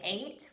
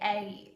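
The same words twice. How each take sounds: First: The vowel is plain, with no uh glide. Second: The vowel glides into an added uh sound. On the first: "instead of saying eight" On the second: "an A sound with a schwa attached to it"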